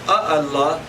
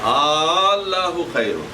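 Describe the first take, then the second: First: Two separate vowel onsets begin the word. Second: One merged long vowel begins the word. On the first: The speaker calls it wrong. "instead of saying A Allah" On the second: The speaker calls it right. "So a long vowel is used"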